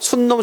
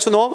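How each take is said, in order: First: An n sound is added after the first syllable. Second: The first syllable ends without an n sound. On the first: The speaker calls it wrong. "일부러 니은을 참고시켜서 순놈, 순놈 하지 마겠습니까?" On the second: The speaker calls it right. "그냥 수놈이야"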